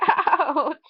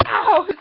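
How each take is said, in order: First: Ouch through a laugh. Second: Sharp loud yelp of pain; ouch. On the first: Kid laughing about his little accident, ouch through a laugh. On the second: Kid hurting himself on camera, sharp loud yelp. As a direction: yelp it high and sudden. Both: Real, not acted.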